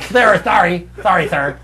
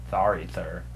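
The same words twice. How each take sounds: First: Loud, high lisping nerd; Simpsons-style lisp. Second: Low, soft lisped "Sorry, sir"; wrong kind of lisp. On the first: Comic showing his intended lisp, loud high cartoon voice. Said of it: "like a lisp in the same way of a fucking Simpsons". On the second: Comic showing what he didn't mean, low soft lisp. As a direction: drop low and lisp it softly. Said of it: "not like a". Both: Shown as a demonstration.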